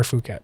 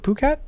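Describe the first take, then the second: First: Phuket said "foo-KET", starting with F; F sound in Phuket. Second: Phuket said "poo-KET", hard P; P sound in Phuket. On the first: Host offering another option, Phuket as "foo-KET". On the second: Host unsure of the name, Phuket as "poo-KET". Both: Shown as a demonstration. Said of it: "is it Phuket or Phuket?".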